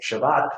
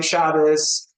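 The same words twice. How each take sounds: First: "Shabbat" stressed on the last syllable. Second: "Shabbos" stressed on the first syllable. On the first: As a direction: say sha-BAT with a t ending. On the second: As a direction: say SHA-bos with an s ending. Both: Shown as a demonstration.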